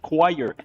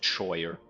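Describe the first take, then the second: First: The word is said in its usual pronunciation. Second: The word is sounded out as it is spelled. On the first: This is the accepted pronunciation. "tell me it's pronounced choir" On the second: This is how it was said in childhood. "I said choir because that's how you fucking write it"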